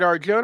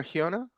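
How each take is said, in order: First: "Arjona" read the anglicised way; English-j pronunciation. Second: "Arjona" with the j said as h; "Arjona" the Spanish way, j as a breathed h; Spanish-j pronunciation. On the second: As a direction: say "Arjona" as ar-HOH-na, questioning. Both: Shown as a demonstration. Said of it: "trying to pronounce it correctly".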